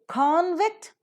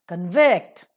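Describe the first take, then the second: First: The stress is on the first syllable. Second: The stress is on the second syllable. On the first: It is used as a noun. "convict as a noun" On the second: It is used as a verb. "convict as a verb"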